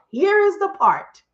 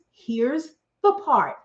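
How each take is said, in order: First: Here is the part, louder and slow; slow it down and land Here is the part; dramatic build. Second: Said in the usual way. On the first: Shown as a demonstration. Building up the punchline for the audience, slow and emphatic.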